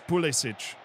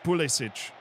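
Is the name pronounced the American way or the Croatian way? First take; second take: Croatian; Croatian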